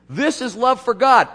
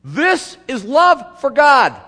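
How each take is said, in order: First: Loud, high proclamation of "This is love for God"; loud quote. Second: "This is love for God" very loud and high, drawn out slowly with weight on "love"; slow emphatic repeat. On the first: Pastor quoting John to the church, loud and high. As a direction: call out "This is love for God" to the congregation. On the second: Pastor repeating John's line to the congregation, slow and emphatic. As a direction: hammer home "love" word by word. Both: Acted.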